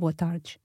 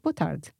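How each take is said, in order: First: The d in tarde sounds like a j. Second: The d in tarde is a plain d sound. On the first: This is the other speaker's regional pronunciation. "Rafael pronounced these as a J sound" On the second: This is the Portuguese-from-Portugal pronunciation. "we have a D sound in Portugal when D is followed by an E or an I"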